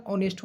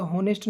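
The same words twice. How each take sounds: First: ऑनेस्ट said with no h, opening straight on the vowel o; silent h pronunciation. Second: हॉनेस्ट said with a clear h at the start; wrong pronunciation with h. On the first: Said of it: "ऑनेस्ट होता है". (ऑनेस्ट को बिना h के, सीधे ओ से बोलें) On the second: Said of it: "हॉनेस्ट नहीं होता". (हॉनेस्ट को h की आवाज़ के साथ बोलें) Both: Shown as a demonstration.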